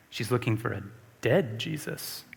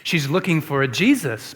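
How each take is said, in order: First: "dead" leaned on, softer and lower overall; stress on dead. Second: Said in the usual way. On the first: Shown as a demonstration. Preacher to congregation, quietly stressing "dead". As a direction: drop the voice and land hard on "dead".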